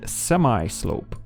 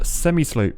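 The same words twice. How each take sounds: First: It is said in an American way. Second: It is said in a British way.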